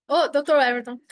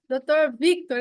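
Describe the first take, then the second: First: "Everton" por engano no lugar de Victor; misread name. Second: Corrige para "doutor Victor", nome certo; corrected name. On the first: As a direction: diz "doutor Everton" lendo errado o nome. (nome lido errado, "Everton") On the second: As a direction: diz "Victor" com ênfase de correção. (correção do nome, "doutor Victor") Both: Real, not acted. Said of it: "é que eu li evento".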